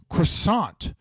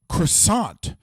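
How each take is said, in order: First: It is said with an American accent. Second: The same.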